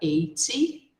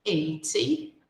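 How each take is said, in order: First: The t is pronounced as a clear, crisp t. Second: The same.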